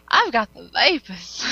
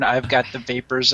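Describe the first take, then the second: First: Slow, drawn-out Southern belle; Southern accent. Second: Light imitation of a Southern belle, lower; Southern accent. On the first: Acted. Co-host teasing about Jason's accent, mock Southern belle. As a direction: swoon it in a hammed-up Southern accent. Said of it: "uh, a Southern "I've got the vapors" accent". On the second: Co-host doubting Jason has that accent, light mock Southern. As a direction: quote it with a hint of Southern accent. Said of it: "a Southern "I've got the vapors" accent".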